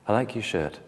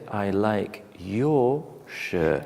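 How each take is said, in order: First: The word 'your' has a short neutral vowel. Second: The word 'your' has a long full vowel. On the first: This is the casual way to say it. "you delete the or and you put your shirt" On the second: This is the formal way to say it. "In formal English, you will say"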